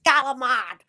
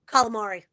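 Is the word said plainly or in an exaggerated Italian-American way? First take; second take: exaggerated; plain. First: The word is said in an exaggerated Italian-American way. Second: The word is said plainly, all syllables pronounced. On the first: This imitates someone else's way of saying it. "she's like Galamad. ... over the top for no reason" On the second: This is the speaker's own way of saying it. "that's how I say it"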